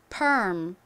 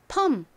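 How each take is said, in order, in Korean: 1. r 발음이 섞인 모음이 닫는 m으로 미끄러져요. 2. r이 없는 평범한 모음이 m으로 닫혀요. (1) "per 하다가 입을 음 이렇게 다물어 주시면 됩니다" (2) "이 리을 발음을 빼고요. 미음 받침을 넣어서"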